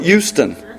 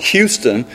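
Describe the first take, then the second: First: The initial H sound is dropped. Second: The initial H sound is clearly pronounced. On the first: "they call it Houston" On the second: "They don't call it Houston"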